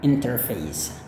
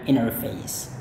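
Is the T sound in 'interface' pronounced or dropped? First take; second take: pronounced; dropped. First: The T sound is clearly pronounced. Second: The T sound is dropped.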